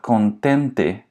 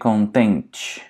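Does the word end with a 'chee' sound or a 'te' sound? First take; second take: te; chee. First: The final syllable is pronounced with a plain t. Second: The final syllable is pronounced with a ch sound. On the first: The speaker calls it wrong. "instead of contente" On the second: The speaker calls it right. "you say contente"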